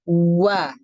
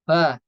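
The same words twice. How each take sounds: First: The lips are pushed forward far too much. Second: The lips are pushed forward too little. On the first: "Itu berlebihan" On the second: "Huruf waw-nya kurang memajukan bibir, maksudnya gini"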